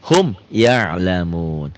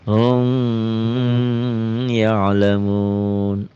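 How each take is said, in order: First: The m is pronounced clearly without a held hum. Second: The m is held with a nasal hum. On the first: The speaker calls it right. "Hukumnya idhar" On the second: The speaker calls it wrong. "dibacanya digayem"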